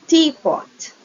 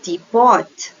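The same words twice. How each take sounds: First: "teapot" stressed on the first part, TEA-pot, drawn out. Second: "teapot" stressed on the second part, tea-POT. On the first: Teacher showing compound word stress, "teapot" stressed on first part. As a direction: slowly punch the start of "teapot": TEA-pot. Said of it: "Compound words also have a word stress". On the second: Teacher showing how stress moves, "teapot" stressed on second part. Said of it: "the stress falls in different syllables". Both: Shown as a demonstration.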